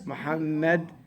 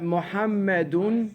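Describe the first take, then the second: First: The name ends without a final vowel. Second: The name ends with an audible -un ending. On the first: The speaker stops at this word. "You didn't say Muhammadun because you stop at it" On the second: The word is connected to the next word. "Muhammadun Dhaki"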